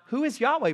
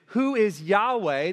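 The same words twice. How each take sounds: First: It sounds like a sincere, curious question. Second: It sounds scornful and dismissive.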